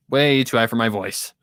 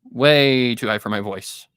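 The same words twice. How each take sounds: The two takes are said the same way.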